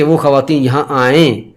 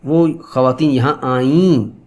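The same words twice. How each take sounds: First: آئیں as 'aa-en', nasal 'ay'; subjunctive 'e' ending. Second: آئیں as 'aa-een', long nasal ee; past-tense 'ee' ending. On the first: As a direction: end آئیں on a nasal 'e', not 'ee'. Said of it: "ان کو آنا چاہیے". (آئیں کے آخر میں 'اے' کی غنہ آواز) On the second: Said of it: "ای کی آواز آتی ہے". (آئیں کو لمبی 'ای' اور غنہ سے) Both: Shown as a demonstration.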